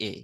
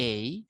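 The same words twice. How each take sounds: First: Said in the usual way. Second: এই as a gliding "ey-ee"; British diphthong in এই. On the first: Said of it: "আমরা বলি". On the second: Shown as a demonstration. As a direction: stretch এই and glide up into "ee". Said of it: "এটা ব্রিটিশরা বলে হচ্ছে".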